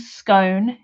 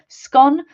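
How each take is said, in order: First: It is said the southern English way. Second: It is said the northern, Scottish way. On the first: "is a southern thing" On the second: "is a northern, uh, northern and Scottish thing"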